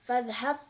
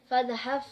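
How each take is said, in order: No difference in how they are said.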